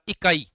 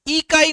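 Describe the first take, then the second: First: The first vowel is said short and quick. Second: The first vowel is drawn out long. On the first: The speaker calls it right. "पहले ई को जल्दी से बोल रहे हो" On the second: The speaker calls it wrong. "इकाई नहीं बोला"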